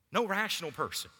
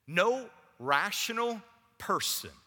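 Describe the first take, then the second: First: Said in the usual way. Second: Slow and loud, leaning on no; drawn-out No in "No rational person"; emphatic. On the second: Acted. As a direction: hit No hard and slowly. Emphatic repeated phrase.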